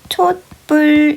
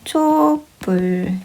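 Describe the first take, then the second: First: The first syllable ends with a t sound. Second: The first syllable ends without a t sound. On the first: "디귿으로 발음을 하는 것도 허용하는 거야" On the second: "발음을 하면 촛불"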